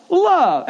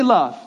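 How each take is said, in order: First: Love said high and drawn out in a falling line; preacher quoting Jesus, with a high falling Love; emphatic Love. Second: Said in the usual way. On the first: Retold or imitated. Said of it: "He says". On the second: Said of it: "Everybody say".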